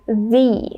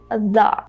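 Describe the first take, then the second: First: The vowel is a long ee sound. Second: The vowel is a short uh sound. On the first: A vowel sound follows the article. "we pronounce it as e" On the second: A consonant sound follows the article. "try to say thun, and then just say the"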